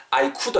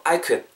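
First: "I could" with a full "koo-duh"; over-pronounced could. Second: "I could" as a short "I kud"; reduced could. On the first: Teacher shows what to avoid, full "koo-duh" in "I could". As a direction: sound out every part of "I could", koo-duh. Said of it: "I could 하지 말고". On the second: Teacher corrects learners, reduced "I kud" for "I could". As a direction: shrink "I could" to "kuh" plus a light d. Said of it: "크에 디귿 정도 붙인다 생각하세요". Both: Shown as a demonstration.

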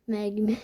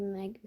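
First: "Mermi" mangled as "mæɡime"; deliberately garbled. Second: Said in the usual way. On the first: Shown as a demonstration. Gamer mocking his own mic, "Mermi" mispronounced. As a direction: say "Mermi" wrongly on purpose, slurred. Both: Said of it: "Bilerek böyle söylüyorum".

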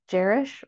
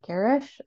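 First: "Garish" said with a soft G, like Jerish; soft-G pronunciation. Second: "Garish" said with a hard G, as in get; hard-G pronunciation. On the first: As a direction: open "Garish" with a J sound, as a tentative guess. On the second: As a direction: open "Garish" with a G as in go, questioningly. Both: Shown as a demonstration. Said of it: "correct my pronunciation of that surname".

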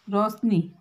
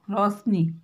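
No difference in how they are said.

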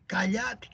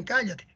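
First: "cállate" stressed on the middle, ca-LLA-te, softly; Argentine verb stress. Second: Said in the usual way. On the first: Shown as a demonstration. Teacher contrasting the Argentinian form, "cállate" stressed as ca-LLA-te. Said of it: "Van cambiando la pronunciación de los verbos". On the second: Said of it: "No dicen".

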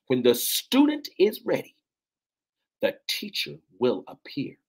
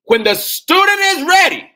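First: Proclaiming. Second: Very high, very loud shout; roaring preacher's climax; full-force preaching shout. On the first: Repeats proverb, less force. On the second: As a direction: cry it out at the peak of fervour. Repeats proverb at peak fervour. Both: Real, not acted.

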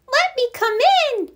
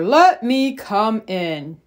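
First: Very high mouse squeak; teeny tiny voice. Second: Slow, measured bear request. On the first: Little mouse asks to enter the mitten, teeny tiny voice. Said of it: "in a teeny tiny voice". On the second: Bear asks the animals in the mitten, slow bear voice. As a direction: ask slowly, each word drawn out. Bear's request beside mouse's same request. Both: Acted.

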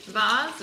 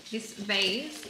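First: Vase said vahz, British style. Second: Vase said vayz, rhyming with days. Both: Shown as a demonstration. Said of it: "what do you say?".

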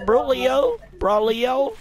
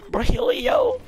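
First: "Brolio" low, rising at the end; low-pitched "Brolio", tipped up like a question. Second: "Brolio" flipped up high; high, playful try at "Brolio"; high-pitched variant. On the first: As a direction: try out "Brolio" in a deep register. Trying out ways to say a name. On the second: Same name tried a third way. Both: Pretend.

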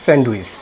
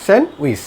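First: স্যান্ডউইচ as "send-uis", d sounded; common mispronunciation. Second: স্যান্ডউইচ as "sen-wis", silent d; correct pronunciation. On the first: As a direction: put the d back into স্যান্ডউইচ. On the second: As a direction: leave out the d in স্যান্ডউইচ. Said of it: "এটা সঠিক উচ্চারণ হবে". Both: Shown as a demonstration.

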